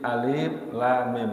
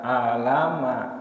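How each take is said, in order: First: Each letter name is spelled out separately. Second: The letters are voweled and read as one word. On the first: The speaker calls it right. "satu kata atau satu huruf per huruf" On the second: The speaker calls it wrong. "jangan dibaca alama, tidak boleh, tidak boleh diharkat"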